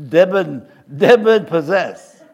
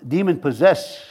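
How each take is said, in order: First: Put-on joking French accent, loud and drawn out; slow, loud mock-French pronunciation. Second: Said in the usual way. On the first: Preacher blames his French side for the slip, mock French accent. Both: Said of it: "That's my French accent is coming out".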